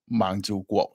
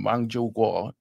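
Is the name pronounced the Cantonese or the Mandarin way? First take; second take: Cantonese; Mandarin. First: The name is pronounced with Cantonese sounds. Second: The name is pronounced with Mandarin sounds. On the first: "in Cantonese" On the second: "in Mandarin"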